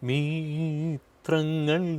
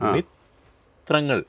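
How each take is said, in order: First: The first vowel is drawn out long. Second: The first vowel is kept short. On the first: The speaker calls it wrong. "പലരും പാടുന്നത്" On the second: The speaker calls it right. "മീക്ക് ദീർഘമില്ല"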